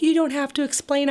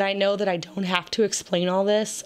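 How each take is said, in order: First: Imitating sweet commenters. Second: Said in the usual way. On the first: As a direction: mimic kind viewers, pitched up and eager. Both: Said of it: "I'm gonna get all these nice people like".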